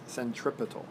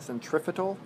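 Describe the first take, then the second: First: The middle consonant is a P sound. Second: The middle consonant is an F sound. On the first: The speaker calls it right. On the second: The speaker calls it wrong.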